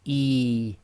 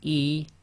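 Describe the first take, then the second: First: The vowel is stretched out, held longer. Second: The vowel is held briefly, one beat. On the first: The speaker calls it wrong. "overstretch it" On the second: The speaker calls it right. "it's one length long"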